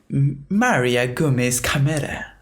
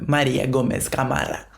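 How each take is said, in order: First: The name is said with an American accent. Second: The name is said with a Spanish accent. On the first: The speaker calls it wrong. "not like the American way" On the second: The speaker calls it right. "their proper accents"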